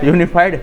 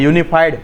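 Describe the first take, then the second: No difference in how they are said.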